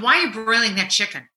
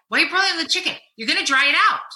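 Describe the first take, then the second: First: Quick, clipped retold snip at husband; a wife's quick dig about the chicken; snippy question. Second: Higher, indignant scolding of the cook; wife scolding husband over dry chicken; exasperated scold. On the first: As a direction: fire it off fast and curt. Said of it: "Just like that". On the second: Retold or imitated. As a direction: push the pitch up in disbelief. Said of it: "and I said".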